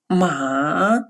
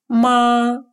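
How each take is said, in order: First: The pitch dips low, then rises. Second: The pitch stays high and level. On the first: It means horse. "с третьим тоном" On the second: It means mother. "с первым тоном"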